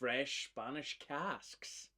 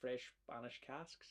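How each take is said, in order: First: The phrase is said at a normal speed. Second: The phrase is said faster than normal.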